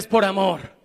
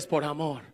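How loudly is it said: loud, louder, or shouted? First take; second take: louder; loud. First: It is said a bit louder still. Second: It is said loudly.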